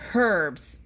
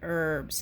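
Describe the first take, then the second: First: It is said with an audible h, English-style. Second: It is said with a silent h, American-style.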